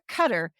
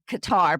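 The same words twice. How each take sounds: First: It is said the local way. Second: It is said the usual American way. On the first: This is how it is said where the country is. "if you hear Qatar" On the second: This is how people in the United States say it. "as U S people, we always have said Qatar"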